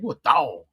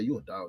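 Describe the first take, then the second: First: It is said with the mouth twisted up. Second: It is said plainly, with a relaxed mouth. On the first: The speaker calls it right. "twist your mouth up when you say you a dog" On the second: The speaker calls it wrong. "You can't say you a dog"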